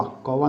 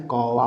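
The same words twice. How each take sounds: First: कौवा with quick o, ko-va; wrong first vowel. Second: कौवा slowly with drawn-out au; correct first vowel. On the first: Teacher showing the mistake, quick o vowel. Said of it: "नहीं होता है". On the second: Teacher correcting the word, slow open au. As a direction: stretch कौवा as kau-va. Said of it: "होता है". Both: Shown as a demonstration.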